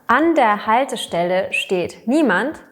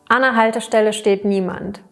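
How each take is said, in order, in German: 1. Präposition und Artikel werden voll gesprochen. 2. Präposition und Artikel verschmelzen und werden verkürzt.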